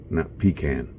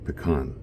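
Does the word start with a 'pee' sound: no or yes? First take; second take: yes; no. First: The first syllable sounds like 'pee'. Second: The first syllable does not sound like 'pee'. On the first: The speaker calls it wrong. "Pecan is in the old days when you didn't have a restroom" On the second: The speaker calls it right. "that's the way we pronounce them here"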